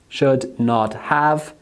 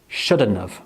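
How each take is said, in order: First: Each word is said fully and separately. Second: The words are squashed together into one reduced form.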